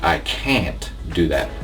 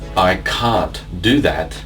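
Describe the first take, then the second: First: It is said in an American or Canadian accent. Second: It is said in a British or Australian accent. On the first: "in American or Canadian English it will be" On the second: "British or Australian English"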